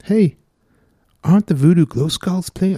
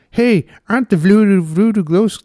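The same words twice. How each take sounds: First: Put-on a half-hearted Irish accent, higher and louder; failed Irish accent. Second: Put-on higher, louder stab at an Irish accent; Irish accent attempt. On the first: Radio host failing an Irish accent for co-host. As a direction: attempt an Irish accent and lose it. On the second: Host retrying an Irish accent, breaking off. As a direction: push the Irish accent then give up. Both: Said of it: "I can't say Voodoo Glow Skulls in an Irish accent".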